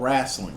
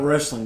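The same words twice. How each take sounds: First: It is said in a Southern accent. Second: It is said in a standard, non-Southern accent. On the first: The speaker calls it right. "We're here in the South. It's called wrestling" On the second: The speaker calls it wrong. "it's not wrestling"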